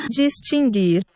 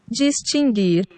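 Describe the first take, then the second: Both takes have the same delivery.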